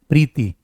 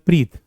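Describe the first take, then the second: First: The name ends with a final 'ee' vowel. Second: The name ends on the consonant 't'. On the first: This is the Hindi reading. "इसे हिंदी में पढ़ते हैं कि हम प्रीति" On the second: This is the Punjabi reading. "Punjabi में पढ़ा जाता है प्रीत"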